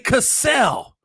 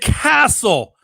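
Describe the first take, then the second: First: The name sounds like the start of cassette. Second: The name sounds like the word castle. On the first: The speaker calls it right. "The man's name is clearly Cassell. Think of it like cassette tape" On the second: The speaker calls it wrong. "you said Castle"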